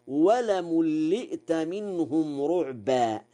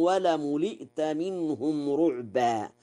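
First: ولملئت as "walamulli'ta"; doubled lam. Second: ولملئت as "walamuli'ta"; single light lam. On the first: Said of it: "بتشديد اللام". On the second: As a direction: keep the second lam of ولملئت undoubled. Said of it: "قوله تعالى". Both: Shown as a demonstration.

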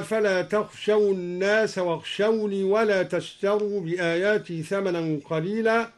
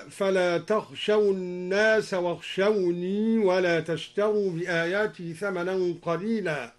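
First: Said in the usual way. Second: واخشوني with the final ya kept, wakhshawnī; إثبات الياء في واخشوني; keep the ya. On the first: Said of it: "أثبت الدوري الياء". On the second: Shown as a demonstration. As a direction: do not drop the ya of واخشوني in linking. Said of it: "أثبت الدوري الياء في واخشوني وصلا، هكذا".

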